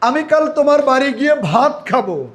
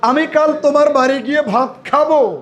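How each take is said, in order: First: The word ভাত is stressed. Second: The word খাবো is stressed. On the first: Rice, not something else, will be eaten. "এবার আমি ভাতের উপরে জোর দিব" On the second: Eating is the action that will happen. "আরেকটা ভার্বের উপরে একটু জোর দেই, খাওয়ার উপরে"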